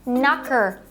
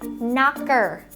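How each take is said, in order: First: It is said at normal conversational speed. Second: It is said slowly and deliberately.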